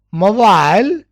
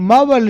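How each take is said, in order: First: MOBILE as "mo-VILE"; long i in the end of MOBILE; British pronunciation. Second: MOBILE as "MO-vul"; American pronunciation. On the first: Teacher contrasting mobile with the American, ending "vile". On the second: Teacher contrasting American mobile for students, short "vul" ending. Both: Shown as a demonstration. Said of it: "mobile in American".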